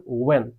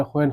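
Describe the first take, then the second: First: "ওয়েন" with a w onset and no h; h-less "ওয়েন", opening oo-en; correct pronunciation. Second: "হোয়েন" opening on an h, ho-en; wrong pronunciation. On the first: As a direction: say "ওয়েন" as wen, starting on rounded lips. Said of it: "এটা হবে ওয়েন". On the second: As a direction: say "হোয়েন" with h before the w. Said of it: "এটা হোয়েন হবে না". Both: Shown as a demonstration.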